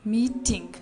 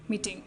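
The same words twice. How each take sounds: First: MEETING drawn out as two parts, MEE-TING; careful model pronunciation. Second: Said in the usual way. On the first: Shown as a demonstration. Teacher dictates a word to learn, MEE-TING pronounced deliberately. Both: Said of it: "to pronounce them".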